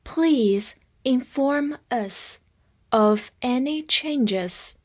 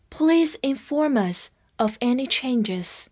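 First: Very slow, in careful separated chunks; slow read-along model. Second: Said in the usual way. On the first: Shown as a demonstration. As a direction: draw each word out for learners to follow. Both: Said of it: "跟我慢读一遍".

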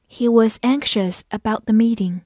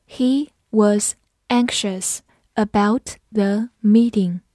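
First: Said in the usual way. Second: Slow, deliberate teaching read; slow classroom model sentence. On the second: Shown as a demonstration. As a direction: stretch each word out for learners.

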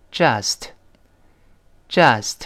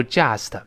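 First: "just" with a short uh after the j; correct vowel. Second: "just" as "jyast-uh"; wrong vowel demo. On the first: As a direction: say "just" cleanly, no y glide. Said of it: "倒V字那个啊连读". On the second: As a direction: mispronounce "just" with a y glide and extra syllable. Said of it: "而不要读just". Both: Shown as a demonstration.

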